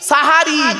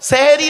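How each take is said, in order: First: The first syllable has an 'a' vowel. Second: The first syllable has an 'e' vowel. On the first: The speaker calls it right. "দন্তেশ্বয় একার নয়, দন্তেশ্বয় আকার।" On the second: The speaker calls it wrong. "সেহেরি নয় শব্দটা"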